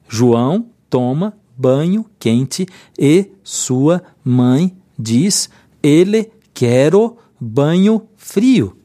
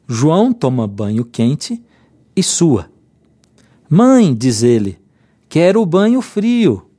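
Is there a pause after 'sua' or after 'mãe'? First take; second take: after mãe; after sua. First: It is read without a pause after 'sua'. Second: It has a pause after 'sua' and around 'diz ele'.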